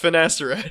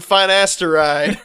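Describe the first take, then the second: First: It is said smoothly as one word. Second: It is split like 'fine ass to ride'. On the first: It names the drug. The speaker calls it right. "It's it's finasteride" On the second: It makes a crude joke. The speaker calls it wrong. "don't pronounce it like that"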